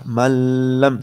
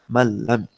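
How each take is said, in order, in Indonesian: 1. Bunyi gabungan itu diucapkan dengan dengung sengau. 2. Bunyi gabungan itu langsung berlanjut tanpa dengung sengau. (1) "Kalau begini salah. Malam salah" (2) "Dia harus langsung malam"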